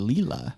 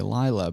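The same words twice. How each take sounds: First: The name is said with an Italian pronunciation. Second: The name is said with an English pronunciation. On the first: "in Italian should it be Lila?" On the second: "instinctively I wanted to say Lila"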